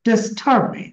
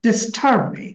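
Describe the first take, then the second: No difference in how they are said.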